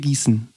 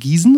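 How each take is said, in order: First: The s sound is long. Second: The s sound is short. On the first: "langes S" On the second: "kurzes S"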